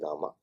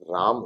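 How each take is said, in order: First: The name ends with an added final vowel. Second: The name ends on the final consonant. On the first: The speaker calls it wrong. "ना कि रामा" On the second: The speaker calls it right. "राम होना चाहिए"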